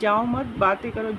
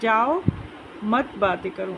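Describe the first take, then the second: First: There is a pause after the second word. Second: There is a pause after the first word. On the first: Do not leave; keep talking. "जाओ मत के बाद ये विराम चिन्ह लगाए तो हम यानी रुकें" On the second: Leave, and do not talk. "जाओ के बाद हमें रुकना है"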